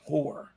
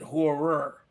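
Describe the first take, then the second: First: The name is said with one syllable. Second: The name is said with two syllables. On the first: The speaker calls it right. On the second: The speaker calls it wrong. "I tried to pronounce it horror"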